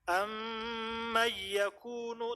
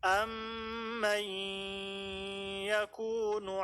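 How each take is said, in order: First: The nasal sound is cut short, not held. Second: The nasal sound is held long and nasalized. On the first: The speaker calls it wrong. "tadi ada yang baca kayak gitu. Harusnya kan ditahan" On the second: The speaker calls it right. "Harusnya kan ditahan"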